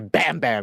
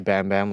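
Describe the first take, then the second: First: It is said loud and energetic, full of emotion. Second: It is said flat and monotone, without emotion. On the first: The speaker calls it right. "you gotta go in" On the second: The speaker calls it wrong. "imagine somebody just like monotone as fuck"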